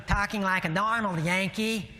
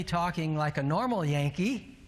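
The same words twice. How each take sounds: First: Exaggerated Yankee accent, pitched up. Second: Said in the usual way. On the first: Shown as a demonstration. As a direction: ham up a Yankee way of talking. Repeats phrase in put-on Yankee voice.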